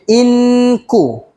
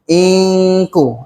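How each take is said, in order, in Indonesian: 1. Bunyi n diucapkan dengan jelas tanpa dengung sengau. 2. Bunyi n tersembunyi dalam dengung sengau yang panjang. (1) "boleh je. Tapi kurang tepat lah" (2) "itu dia punya, dia punya dengung lah"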